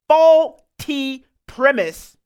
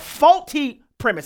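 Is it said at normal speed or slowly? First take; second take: slowly; normal. First: It is said very slowly. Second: It is said at normal speed.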